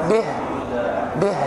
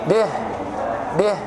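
No difference in how they are said.

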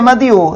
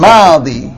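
First: The word ends with an added 'yu' syllable. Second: The word ends in a long 'ee' vowel. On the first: The speaker calls it wrong. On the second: The speaker calls it right.

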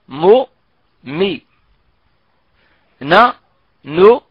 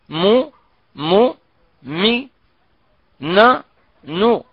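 First: The nasal sound on m and n is brief. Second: The nasal sound on m and n is prolonged. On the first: The speaker calls it right. "نتخلص من الغنة في الميم والنون المتحركتين في أسرع وقت ممكن" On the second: The speaker calls it wrong. "ولكن لا نقول"

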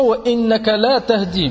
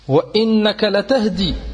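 First: The vowel after the L is long. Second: The vowel after the L is short. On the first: You do not guide. The speaker calls it wrong. "Je dis pas" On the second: You do guide. The speaker calls it right. "on fait attention de ne pas prononcer le la, de allonger la voyelle"

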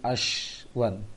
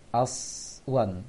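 First: The middle consonant is an sh sound. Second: The middle consonant is a thick s sound. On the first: The speaker calls it wrong. "jangan seperti ashwan" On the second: The speaker calls it right. "ya seperti sin yang yang ditebalkan"

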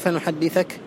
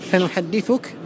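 First: The verb ends with the vowel a before -ka. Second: The verb ends with the vowel u before -ka. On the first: The verb is in the subjunctive mood. "بالنصب" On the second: The verb is in the indicative mood. "بالرفع"

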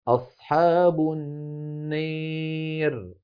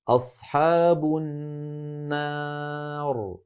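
First: The long vowel is pushed strongly toward an 'ee' sound. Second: The long vowel after r stays fully open 'a'. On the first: "بالنسبة للإمالة إمالة كبرى" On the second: "أما الفتح فيكون هكذا"

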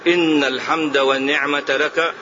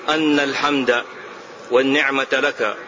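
First: The first word is said with an i vowel. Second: The first word is said with an a vowel. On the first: The praise is stated generally and unconditionally. The speaker calls it right. "رواية الكسر أعم وأشمل، فتكون أولى، أي أن تقول" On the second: The praise is given as a reason for the response. The speaker calls it wrong. "ولا تقل"

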